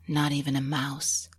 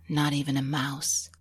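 Both takes have the same delivery.

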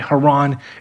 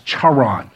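First: The name is said the English way. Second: The name is said the Hebrew way. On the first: The speaker calls it wrong. "they don't say Haran" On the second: The speaker calls it right. "In Hebrew, ... it's Charan"

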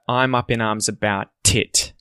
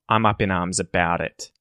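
First: The T is a crisp, released T sound. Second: The T is a soft, flowing D sound. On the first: The speaker calls it wrong. "There's no t-t-t" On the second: The speaker calls it right. "It's a d sound"

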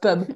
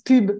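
First: The word is said with an English pronunciation. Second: The word is said with a French pronunciation. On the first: It means a drinking venue. The speaker calls it wrong. "and not pub" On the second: It means advertising or publicity. The speaker calls it right. "You have to pronounce it the French way"

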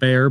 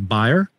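First: The name is said with an American English pronunciation. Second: The name is said with a German pronunciation. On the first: This is how speakers in the United States say it. "I think we pronounce it Bayer" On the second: This is how German speakers say it. "but you would say Bayer"

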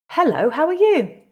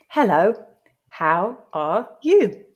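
First: The greeting is read at a natural pace. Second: The greeting is read slowly. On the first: "read it twice more at a more natural pace" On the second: "the first time slowly for you to grasp the meaning"

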